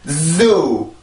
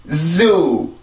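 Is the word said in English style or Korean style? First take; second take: English style; English style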